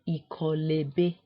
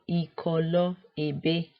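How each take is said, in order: First: The final vowel drops and the words run together. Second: The two words are said separately, keeping both vowels.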